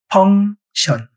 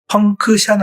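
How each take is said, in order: First: No k sound is heard before the final syllable. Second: A k sound is heard before the final syllable. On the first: The speaker calls it right. "대표적인 단어가 펑션이에요" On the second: The speaker calls it wrong. "펑크션 아니에요"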